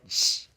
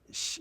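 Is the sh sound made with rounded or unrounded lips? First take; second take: unrounded; rounded. First: The sh is said unrounded, further forward. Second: The sh is said with rounded, funneled lips. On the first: "you don't round the lips. ... more forward in the mouth" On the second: "when we say sh, we funnel our lips"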